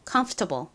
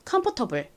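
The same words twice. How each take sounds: First: It is said with an American accent. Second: It is said with Korean-style syllables. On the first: "미국식 원어 발음" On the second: "이 단어의 한국식 발음 먼저 같이 해볼게요"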